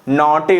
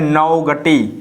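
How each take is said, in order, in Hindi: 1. बीच में 'g' की कोई ध्वनि सुनाई नहीं देती। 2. बीच में 'g' की ध्वनि सुनाई देती है। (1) "ये हमारा नॉटी सही रहेगा" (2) "ये हमारा उच्चारण गलत हो जाएगा"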